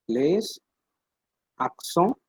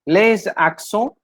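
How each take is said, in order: First: "Les" then a pause, then "accents" softer with a rise; split by syllable. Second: "Les accents" said slowly, sounding the liaison z; teacher pronouncing "Les accents" slowly for the class; French term said slowly. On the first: Teacher repeats the word for students to copy, softly split in two. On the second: Teacher introduces the topic to students, slow careful French. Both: Shown as a demonstration.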